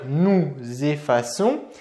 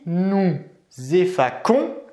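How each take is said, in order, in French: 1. La consonne du milieu est un son S doux. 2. La consonne du milieu est un son K dur. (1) "on va bien dire" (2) "on ne va pas dire ici"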